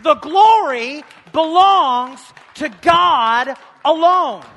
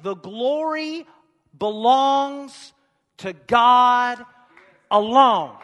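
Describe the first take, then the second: First: The glory belongs to God alone, shouted high, loud and slow; ringing preacher's cry; full-voiced shout. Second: The glory belongs to God alone, each word spaced out and slowed, building louder; a measured build to alone; slow emphatic proclamation. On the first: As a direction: proclaim it to the whole church. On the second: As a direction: lay it down word by word. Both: Shown as a demonstration. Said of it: "you can clap for that 'cause it's the truth".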